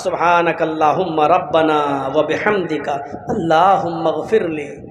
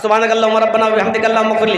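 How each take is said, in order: First: It is recited slowly and carefully. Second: It is recited quickly and hurriedly.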